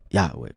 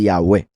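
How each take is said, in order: First: The stress is on the first syllable. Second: The stress is on the last syllable. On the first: The speaker calls it wrong. "no Yahweh" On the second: The speaker calls it right. "la tilde la ponen al final mostrando que es Yahweh"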